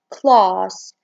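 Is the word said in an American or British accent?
British. The word is said in a British accent. "In British, they say it as class"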